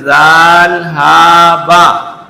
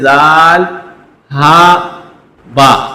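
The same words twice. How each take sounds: First: The letter names run together without pauses. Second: Each letter name is read separately with pauses. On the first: The letters are written joined together. "हम इसमें रुकेंगे नहीं, इनको साथ साथ पढ़ेंगे" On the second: The letters are written apart. "ये अलग पढ़े जाएंगे"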